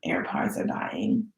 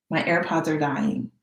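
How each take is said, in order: First: Low unvoiced whisper, slow; whispered dying-battery lament. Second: Said in the usual way. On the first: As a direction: breathe it out slowly like a sad aside. AirPods dying, annoyed.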